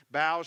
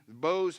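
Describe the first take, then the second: First: "bows" said like bough, rhyming with cows; "bows" with the ow of now; misread bows. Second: "bows" said with a long o, like bowing arrows' bow; "bows" rhyming with rose; corrected bows. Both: Shown as a demonstration. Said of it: "I'm sorry".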